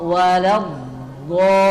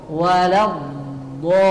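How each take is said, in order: No difference in how they are said.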